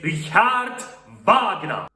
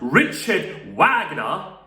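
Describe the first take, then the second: First: The name is said with German pronunciation. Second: The name is said with English pronunciation. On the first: The speaker calls it right. "Because this guy came from Germany, and his name is pronounced as Richard Wagner" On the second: The speaker calls it wrong. "It's not Richard Wagner"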